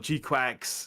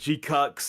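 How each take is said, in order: First: The second part sounds like 'quacks'. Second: The second part sounds like 'cucks'. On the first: "other people pronounce it as" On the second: "other people pronounce it as"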